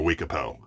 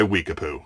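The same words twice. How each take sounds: First: Weekapo ending in a "poh" sound; alternative pronunciation. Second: Weekapoo ending in a "poo" sound; alternative pronunciation. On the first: Reviewer offering another brand pronunciation, Weekapo said with an oh ending. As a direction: say Weekapo with the last syllable rhyming with "go". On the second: Reviewer unsure of the brand name, Weekapoo said with an oo ending. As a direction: say Weekapoo with the last syllable rhyming with "too". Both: Shown as a demonstration. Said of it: "however you say it".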